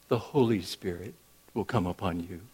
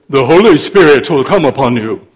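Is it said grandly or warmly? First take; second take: warmly; grandly. First: It is said warmly, like a friend. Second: It is said grandly, like an orator.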